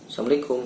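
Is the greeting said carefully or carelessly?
carelessly. It is tossed off carelessly, like a parrot. The greeting is said without care for its meaning. The speaker calls it wrong. "Jangan mengucapkan salam asal-asalan ... udah kayak burung beo"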